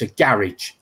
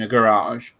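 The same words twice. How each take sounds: First: Garage is said with a non-American, local accent. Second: Garage is said with an American accent.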